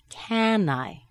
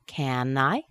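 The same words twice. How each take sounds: First: The voice falls at the end. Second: The voice rises at the end.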